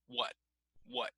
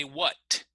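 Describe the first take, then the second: First: WHAT cut short on an unreleased T; stop on the T. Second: WHAT with a crisp, fully released final T. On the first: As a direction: North American "What", t held with no release. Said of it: "we generally stop on the T". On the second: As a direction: let the t at the end of "what" pop, British style. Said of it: "that's more British English". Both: Shown as a demonstration.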